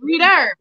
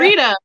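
First: The name ends with an added r sound. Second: The name ends in a plain vowel.

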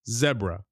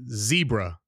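First: The first vowel is a short E sound. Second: The first vowel is a long E sound. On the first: This is how the spelling rules say it should be. "The vowel consonant does not stress the E" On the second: This is how people normally say it. "We pronounce it zebra"

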